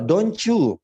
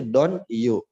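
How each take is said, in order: First: DON'T YOU linked as "donchu", pitched up and louder; C sound linking. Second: DON'T YOU as two separate words, "don yu"; words unlinked. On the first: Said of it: "Tapi ada C-nya di situ". ("don't you" disambung dengan bunyi C: "donchu") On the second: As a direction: say "don't you" without the ch link. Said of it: "itu apa sih?". ("don't you" dipisah, tanpa bunyi C) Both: Shown as a demonstration.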